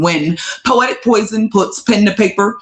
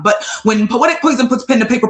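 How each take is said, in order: First: It is said slowly. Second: It is said fast.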